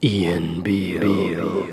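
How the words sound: It is said in a put-on sexy voice.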